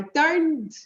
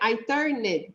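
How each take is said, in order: First: The -ed ending adds no extra syllable at all. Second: The -ed ending is said as an extra syllable. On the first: The speaker calls it right. "A gente fala I turned, I turned. O E sai, ele sai bem suave" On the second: The speaker calls it wrong. "a gente nunca pronuncia I turned"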